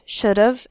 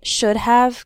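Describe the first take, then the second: First: The word have is shortened and run together. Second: The word have is pronounced fully and clearly.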